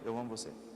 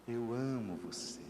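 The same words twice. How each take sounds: First: It is said flatly, like a full stop. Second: It is said with strong emotion.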